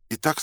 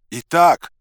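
First: Said in the usual way. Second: Loud, high-pitched yell; high, forceful shout. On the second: A narrator's reading. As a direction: holler it at someone hard of hearing. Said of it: "заорал я".

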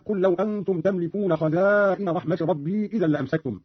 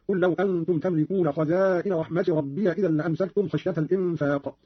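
First: Said in the usual way. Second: ربي said "rabbiya", ending in a; Qalun's open ya. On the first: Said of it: "قرأ قالون بفتح الياء". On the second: Shown as a demonstration. Teacher demonstrating Qalun's reading, ربي as "rabbiya". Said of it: "قرأ قالون بفتح الياء هكذا".

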